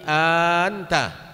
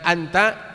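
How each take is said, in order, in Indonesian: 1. Vokal pertama panjang. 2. Vokal pertama pendek. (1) "A-nya itu panjang" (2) "bukan anta"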